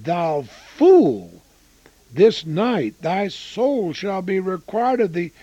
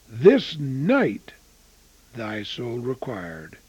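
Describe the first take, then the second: First: Ringing rebuke. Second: "this night" weighted, "thy soul required" dropped low and slow; slow solemn echo. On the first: Preacher reads God's rebuke. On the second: Preacher repeating the verse to his congregation, slow and grave. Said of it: "The fool's last night on earth". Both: Acted.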